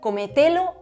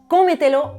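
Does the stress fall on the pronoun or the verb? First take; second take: pronoun; verb. First: The stress falls on one of the pronouns. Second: The stress falls on the verb, not the pronoun. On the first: The speaker calls it wrong. "en lugar de decir" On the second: The speaker calls it right. "la fuerza cuando pronunciamos esa palabra no recae sobre el pronombre"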